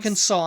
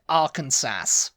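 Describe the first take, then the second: First: The word ends in saw, with no final s. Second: The word ends like Kansas, with a final s. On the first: The speaker calls it right. "no, it's Arkansas" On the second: The speaker calls it wrong. "I used to pronounce it Arkansas"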